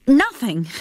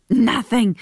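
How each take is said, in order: First: Said in the usual way. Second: Nothing. with a short uneasy laugh before it; nervous laugh. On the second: Acted. Tim deflects with a laugh.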